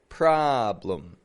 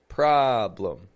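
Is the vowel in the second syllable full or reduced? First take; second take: reduced; reduced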